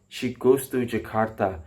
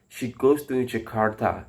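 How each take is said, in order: No difference in how they are said.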